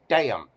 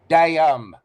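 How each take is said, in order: First: The word is said in one syllable. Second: The word is drawn out into two syllables.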